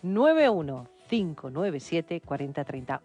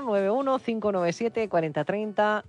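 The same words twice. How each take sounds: First: The number is said slowly. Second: The number is said quickly.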